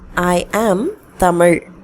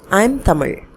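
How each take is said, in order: First: I and am are said separately. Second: I and am are run together.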